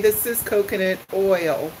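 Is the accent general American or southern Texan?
general American. Oil is said with a clear oy diphthong. "Most people say"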